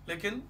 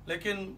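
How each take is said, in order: No difference in how they are said.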